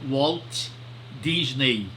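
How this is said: The name is said with Portuguese sounds. "a gente sempre chama portuguesando"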